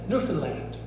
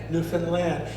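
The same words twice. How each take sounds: First: The stress is on the first syllable. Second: The stress is on the last syllable. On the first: "You can also put the emphasis on the new" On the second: "It rhymes with understand"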